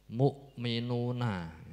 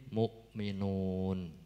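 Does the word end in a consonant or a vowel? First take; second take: vowel; consonant. First: The word ends with a final 'a' vowel. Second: The word ends on 'n' with no vowel. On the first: The reading continues without stopping. "yang akhir dibaca fathah" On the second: The reading stops at this word. "dibaca wakof menjadi disukun"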